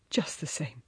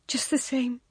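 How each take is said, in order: First: Quiet echo. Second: Said in the usual way. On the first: A narrator's reading. He echoes her words.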